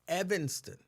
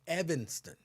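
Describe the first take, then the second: No difference in how they are said.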